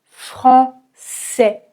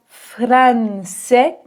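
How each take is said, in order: First: Only a single nasal vowel sound is heard. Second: The N is pronounced as a separate consonant. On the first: The speaker calls it right. "mais français" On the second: The speaker calls it wrong. "on ne dit pas français"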